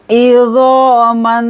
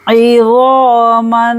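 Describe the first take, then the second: First: Izo man with zo held; drawn izo. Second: Izo man slowly with long zo; drawn izo again. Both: Shown as a demonstration. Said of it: "दो second के लिए खींचेंगे".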